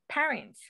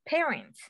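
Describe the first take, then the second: First: The first syllable does not sound like 'pear'. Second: The first syllable sounds like 'pear'. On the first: The speaker calls it wrong. "I have said in a way that all my life" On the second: The speaker calls it right. "I just learned today that was parents"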